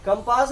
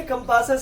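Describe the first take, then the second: First: कंपास in two syllables, ending on s; incorrect singular. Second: कंपासेस with an extra -ses syllable; correct plural. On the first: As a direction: stop कंपास at the first s. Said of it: "कंपास नहीं". (कंपास, अंत में सिर्फ़ स) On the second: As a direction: finish कंपासेस with a clear -ses. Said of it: "सब सही नाम बोला". (कंपासेस, अंत में सेस जोड़कर) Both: Shown as a demonstration.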